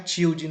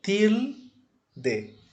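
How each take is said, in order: First: "tilde" softened to "CHIU-dji"; wrong Brazilian pronunciation. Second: "tilde" broken in two, TIL... de, high first syllable; correct Spanish pronunciation. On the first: Teacher warns students how not to say it, Brazilian-style pronunciation. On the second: Teacher corrects students' pronunciation, Spanish sounds split by syllable. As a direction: separate "tilde" with hard t, clear L, plain de. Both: Shown as a demonstration. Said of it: "Não é tilde".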